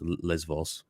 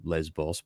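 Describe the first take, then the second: First: The middle consonant is a V sound. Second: The middle consonant is a B sound. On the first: This is the Greek way of saying it. "the Greeks pronounce it as V" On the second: This is the English way of saying it. "in English we would say Lesbos"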